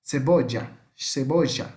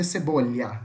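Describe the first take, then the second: First: "cebolla" with the double L dragged into a sh/zh sound; "cebolla" as se-BO-zha; Rioplatense pronunciation. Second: "cebolha" with ll as a ly sound, like Portuguese LH; general Spanish pronunciation. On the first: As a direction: say "cebolla" River Plate style, ll like Portuguese X. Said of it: "um som meio puxado isso aqui, como se fosse um X". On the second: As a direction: say "cebolha" as se-BO-lya. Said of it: "no resto do mundo que fala espanhol vai ser". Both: Shown as a demonstration.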